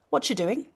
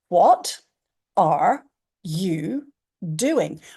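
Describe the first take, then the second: First: The words run together with a ch sound. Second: Every word is said clearly and separately. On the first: "we've missed out the A R E completely" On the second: "I could say this phrase really, really, really precisely"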